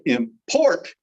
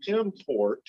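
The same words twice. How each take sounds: First: "import" as a verb, im-PORT; "import" with a light start and stressed final syllable; stress on second syllable. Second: "import" as a noun, IM-port; "import" stressed up front, second syllable lighter; stress on first syllable. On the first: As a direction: say "import" with a strongly punched PORT. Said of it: "emphasis on the last or the second". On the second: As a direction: say "import" with the weight on IM. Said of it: "That's a noun". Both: Shown as a demonstration.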